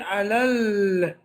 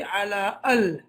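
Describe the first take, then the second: First: The words run together with no break between them. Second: The words are said apart with a separate 'al'. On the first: The speaker calls it right. "So you say alal" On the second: The speaker calls it wrong. "You don't say ala al"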